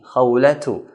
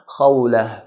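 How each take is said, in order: First: The word ends with a t sound plus vowel. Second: The word ends with a soft h sound. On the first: The speaker continues speaking after this word. "if we continue from a word that ends with a ta marbuta, then we pronounce as a ta" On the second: The speaker stops after this word. "because we're stopping at khawlah, we should make a ha sound"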